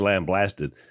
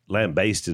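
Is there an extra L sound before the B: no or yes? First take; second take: yes; no. First: An extra L sound comes before the B. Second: No extra L sound comes before the B. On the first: The speaker calls it wrong. "You said lambasted" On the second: The speaker calls it right. "Lambasted is the word"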